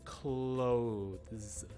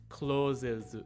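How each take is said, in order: First: The middle has a th sound. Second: The middle has a plain s sound. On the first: The speaker calls it right. "you want to say clothes" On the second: The speaker calls it wrong. "sort of a Japanese pronunciation of it"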